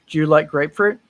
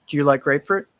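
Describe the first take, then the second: Both takes have the same delivery.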